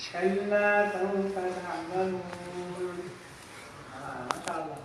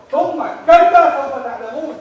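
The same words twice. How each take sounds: First: Soft, mellow melodic recitation of "كلا سوف تعلمون"; mock soothing recital; sweet recitation. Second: Loud, fast stern "ثم كلا سوف تعلمون" with a rising end; an angry scolding recitation; forceful warning. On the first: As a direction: chant it gently as if nothing is wrong. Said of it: "it's the opposite of the intent". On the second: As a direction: hurl it as a scolding threat. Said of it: "the tafsir of the ayah is in the way you're gonna say it". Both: Shown as a demonstration.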